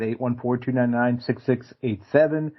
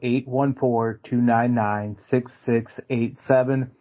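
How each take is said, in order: First: The number is read very quickly. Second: The number is read more slowly. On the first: The speaker calls it wrong. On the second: The speaker calls it right.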